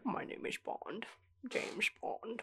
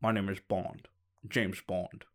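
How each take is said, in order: First: Slow breathy Connery Bond, much softer; Bond imitation. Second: Lightly voiced Connery, lower and soft; a hint of Bond, mouthing it slowly; Sean Connery as Bond. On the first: Friend copying his Bond line, slow and breathy. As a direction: chew the words like Connery with something in the mouth. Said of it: "you're almost chewing it". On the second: [name] imitating Sean Connery's Bond for a friend. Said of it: "I'll do the Bond".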